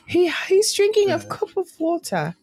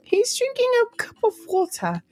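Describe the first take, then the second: First: It is said in the speaker's ordinary accent. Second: It is said in a put-on British accent.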